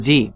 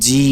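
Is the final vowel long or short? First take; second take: short; long. First: The final vowel is short. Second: The final vowel is drawn out long. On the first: "শুধুমাত্র স্বাভাবিক উচ্চারণ করলে হরকতের সাথে" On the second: "মদের সাথে"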